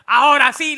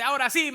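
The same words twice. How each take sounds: First: A sudden loud, eager "Ahora sí"; loud urging. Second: Said in the usual way. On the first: Acted. King urging Balaam to curse, loud eager call. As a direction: call it out like a king who finally has his chance.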